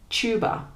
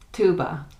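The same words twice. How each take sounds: First: British "Tuba" with a ch sound; higher, "Tuba" starting like "chew"; British pronunciation. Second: American "tuba" with a plain t; "tuba" starting like "too"; American pronunciation. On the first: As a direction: say "Tuba" as CHOO-ba. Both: Shown as a demonstration. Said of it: "next to each other to hear the difference".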